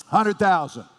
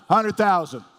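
No difference in how they are said.

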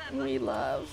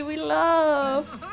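First: "We love" dropped low with a weight on "we"; low deep. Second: Bright high "We love" in a playful lilt; high sing-song. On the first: Deep low echo of her own line. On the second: Playful high lilt to the game. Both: Shown as a demonstration.

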